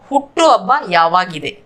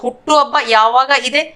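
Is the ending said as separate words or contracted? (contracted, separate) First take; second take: contracted; separate. First: The last two words merge into one word. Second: The last two words are said separately. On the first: This is the everyday spoken form. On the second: This is the full form.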